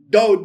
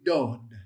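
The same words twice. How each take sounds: First: The D at the start is hard and forceful. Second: The D at the start is softened and gentle. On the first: The speaker calls it wrong. "It wouldn't be dod" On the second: The speaker calls it right. "it'd be dod, Soften that D"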